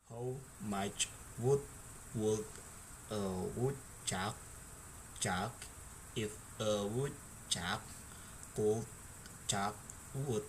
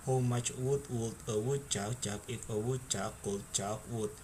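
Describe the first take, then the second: First: It is said at a slow speed. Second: It is said at a fast speed.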